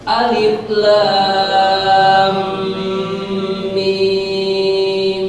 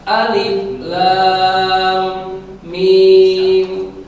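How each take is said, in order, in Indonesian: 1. Nama huruf disambung, dan bunyi m ditahan. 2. Nama huruf dibaca terputus-putus. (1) "maka tahan suaranya" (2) "dibaca putus-putus, salah"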